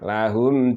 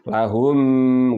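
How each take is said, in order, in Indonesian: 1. Huruf m dibaca pendek, tanpa dengung. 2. Huruf m dibaca dengan dengung.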